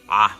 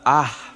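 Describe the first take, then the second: First: The vowel is made with a constricted, closed throat. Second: The vowel is made with an open, relaxed throat. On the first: "it makes the ah, ah sound" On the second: "but not the ah sound, as in the letter A"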